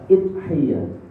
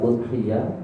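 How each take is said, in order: First: The word begins with an i vowel. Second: The word begins with an u vowel. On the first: "bisa idhiyah" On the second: "Bisa udhiyah"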